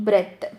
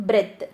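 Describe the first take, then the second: No difference in how they are said.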